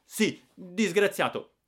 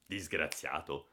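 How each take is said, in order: First: High, loud and slow angry retort; snapping back. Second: Low, slow and softer through gritted teeth. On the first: Giannino snapping at his brother-in-law, loud and high. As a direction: throw the word back furiously. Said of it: "e scattai". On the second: Brother-in-law scolding Giannino, through gritted teeth. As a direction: grind the word out, slow and low. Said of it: "esclamò a denti stretti". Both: Acted.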